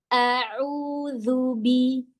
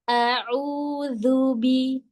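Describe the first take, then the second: Both takes have the same delivery.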